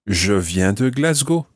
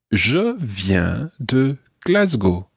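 First: Said in the usual way. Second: Slow, word-by-word "Je viens de Glasgow"; slow model phrase. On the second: Shown as a demonstration. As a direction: say "Je viens de Glasgow" slowly, spacing the words for a learner. Teacher models phrase slowly for learner.

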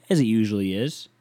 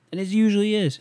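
First: Said in the usual way. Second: Usually said much higher; high singsong repeat of his own words; high mocking repeat. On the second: Shown as a demonstration. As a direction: echo himself in a high mock voice.

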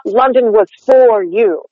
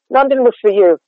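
First: Slow, with "for" given a full rounded vowel; stressed full for. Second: "for" said as fuh with a schwa, unstressed; reduced for. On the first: Coach demonstrating the overdone stressed "for". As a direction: round the lips hard on "for". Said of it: "the vowel in "for" ... extreme". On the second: Coach showing the casual reduced "for". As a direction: slide through "for" as a weak fuh. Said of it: "I'm saying, like, F and a schwa". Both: Shown as a demonstration.

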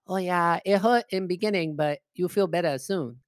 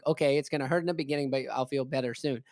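First: Mock Chinese accent, dropped r's; imitating Chinese-accented old lady. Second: Said in the usual way. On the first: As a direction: reassure in a put-on Chinese accent. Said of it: "She goes". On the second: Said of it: "I'm like".

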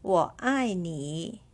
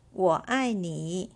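First: 我爱你 said slowly; slow model. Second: Said in the usual way. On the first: Shown as a demonstration. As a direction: give it slowly once more.

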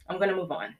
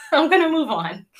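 First: Said in the usual way. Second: "I'm gonna move on" through a bright nervous laugh, pitched higher and louder. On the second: Real, not acted. Brushing off her emotion for the viewers, laughing and louder. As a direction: laugh off the tears and push forward.

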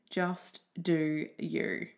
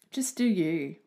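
First: "just do you" drawn out slowly, each word leaned on; slow it right down and land it; slow emphatic. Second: Said in the usual way. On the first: Shown as a demonstration. Urging listeners to be themselves, slow and emphatic.

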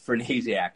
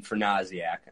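First: Fernasiak said with a long "ay" in the middle, fer-NAY-ziak; Buffalo pronunciation. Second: Fernasiak said with "ah" in the middle, fer-NAH-ziak; broad-A pronunciation. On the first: Host pointing out the local accent in guest's name, Fernasiak with "ay". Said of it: "Buffalo, New York accent in the way". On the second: Host showing guest how his name sounds elsewhere, Fernasiak with broad "ah". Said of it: "anywhere else, you would be". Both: Shown as a demonstration.

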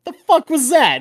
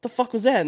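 First: Much higher, louder stunned outburst; baffled disbelief. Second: Put-on higher, incredulous repeat to the girlfriend; baffled disbelief. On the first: Retold or imitated. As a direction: sound completely thrown. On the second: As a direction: ask it still stunned. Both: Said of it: "I'm like".

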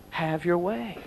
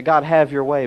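First: Softer, heartfelt have your way; mean every word of have your way, quietly; sincere. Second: Said in the usual way. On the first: Shown as a demonstration. Preacher truly handing a sermon to God, soft sincere plea. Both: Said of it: "but really".

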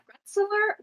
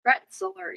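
First: GRETZLER as a high, rising question; unsure, high-pitched GRETZLER; questioning pronunciation. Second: Said in the usual way. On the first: Real, not acted. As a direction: try out GRETZLER tentatively, pitched way up. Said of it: "How do you pronounce that?". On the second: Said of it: "Yeah, it's Gretzler".

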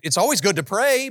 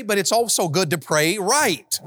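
First: Said in the usual way. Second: Right drawn out and falling; stress on right. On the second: Shown as a demonstration. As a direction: lean hard on right.

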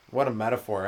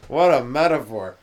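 First: Said in the usual way. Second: Slow, laughing repeat. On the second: Real, not acted. Savouring his own sheep joke, laughing slowly. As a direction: chuckle it out, relishing the joke.

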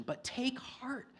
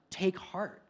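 First: "take heart" said slowly, much higher and softer; a pastor softly repeating Jesus' comfort, high and slow. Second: Said in the usual way. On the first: Shown as a demonstration.

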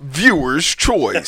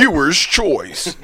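First: Very slow falling announcer call; slow announcer call again. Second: Slow drawn-out announcer call. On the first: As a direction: draw it out slower, falling. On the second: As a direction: stretch it out slowly. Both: Shown as a demonstration. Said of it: "Do that again".

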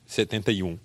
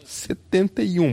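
First: Said in the usual way. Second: "setenta e um" drawn out, higher and slow; pleading stress. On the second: Acted. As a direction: stretch "setenta e um" like a hopeful plea. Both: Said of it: "Eu que sou [name]".

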